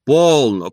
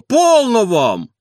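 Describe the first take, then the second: First: Loud call to stop; calling for calm. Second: High, loud, very slow plea; stop it. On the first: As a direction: break it up, louder. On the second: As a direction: draw out полно, high and loud. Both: A narrator's reading. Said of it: "твердил дворник".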